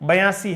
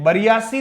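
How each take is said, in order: First: It goes straight from 'ba' to 'yasi'. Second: It has an extra 'ri' syllable after 'ba'. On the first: The speaker calls it right. "बयासी है" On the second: The speaker calls it wrong. "बरियासी नहीं है"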